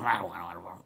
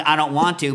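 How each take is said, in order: First: Much lower, much softer sulky grumble; grandpa's mumble. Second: Said in the usual way. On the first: Retold or imitated. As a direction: mutter it to yourself reluctantly. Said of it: "Grandpa would mumble". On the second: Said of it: "the parrot learned".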